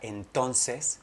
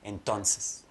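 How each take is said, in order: First: All the vowels are clearly pronounced. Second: The vowels are reduced and barely heard.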